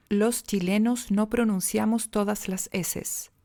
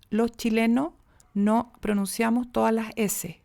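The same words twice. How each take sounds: First: Slow, careful, a full hissed s in "Los chilenos" and "todas las eses"; every s pronounced. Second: "Los chilenos" as "loh chilenoh", no final s sounded; all s aspirated. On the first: Coach showing the overcorrect, unnatural way, every s fully pronounced. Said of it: "Ahí las pronuncié todas". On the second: Coach showing the other extreme, every s aspirated or dropped. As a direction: breathe away or drop each final s in "todas las eses". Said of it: "no pronunciar ninguna, todas aspiradas". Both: Shown as a demonstration.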